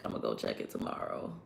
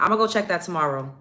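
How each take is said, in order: First: Whispered, much softer and lower, muttered aside; whispered to self. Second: Said in the usual way. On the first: Real, not acted. Streamer reminding herself about the renewal, whispered. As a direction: say it under your breath as a reminder to yourself.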